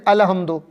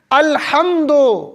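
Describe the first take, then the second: First: "الحمدو" with a light, quick h; wrong pronunciation. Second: Very slow, drawn-out "الحمدو" with a full throaty h; correct Arabic pronunciation. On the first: Retold or imitated. Preacher shows worshippers' mistake, mispronounced. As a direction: toss off "الحمدو" without the deep throaty h. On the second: Shown as a demonstration. Preacher corrects worshippers' recitation, careful pronunciation. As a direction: stretch "الحمدو", sounding every letter. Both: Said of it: "الحمدو کہاں ہے".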